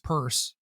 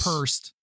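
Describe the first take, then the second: First: The word ends with a plain S sound. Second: The word ends with an added T sound. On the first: The speaker calls it right. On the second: The speaker calls it wrong.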